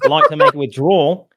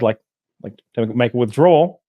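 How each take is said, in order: First: It is said in a put-on Australian accent. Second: It is said in the speaker's normal accent.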